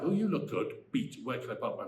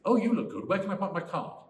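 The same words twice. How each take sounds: First: A stiff break with the word "Beat." in the middle; pause marked beat. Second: One flowing line, no beat before "Where"; no pause. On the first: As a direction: stop after "good", say "Beat.", then "Where can I park my". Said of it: "Where there was no beat?". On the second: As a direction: run "good" straight into "Where can I park my car". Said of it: "the way I said it first". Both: Shown as a demonstration.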